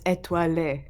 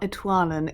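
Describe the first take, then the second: First: The word ends with a final 'ay' vowel. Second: The word ends without a final 'ay' vowel. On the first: The speaker calls it right. "it's étoilé" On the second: The speaker calls it wrong. "It's not étoile"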